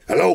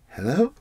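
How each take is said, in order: First: It sounds confident and authoritative. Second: It sounds timid and scared.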